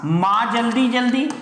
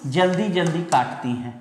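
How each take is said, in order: First: "माँ जल्दी जल्दी" as one phrase, rising at the end; group "जल्दी जल्दी" with "माँ", left hanging; reading one grouping. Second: "जल्दी जल्दी काटती हैं" as one settled phrase; reading other grouping. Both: Shown as a demonstration. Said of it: "तो बस एक काम करना".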